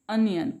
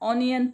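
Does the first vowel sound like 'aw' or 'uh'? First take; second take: uh; aw. First: The first vowel is a short 'uh' sound. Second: The first vowel is an open 'aw' sound. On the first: "बघा ओचा उच्चार अ" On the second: "किंवा ऑनियन पण म्हणतात काही जण"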